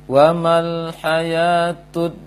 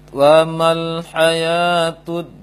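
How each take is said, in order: Both takes have the same delivery.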